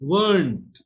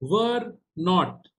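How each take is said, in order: First: The words are contracted into one syllable. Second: Both words are said fully and separately.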